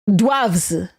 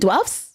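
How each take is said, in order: First: The word ends with a V sound. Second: The word ends with an F sound.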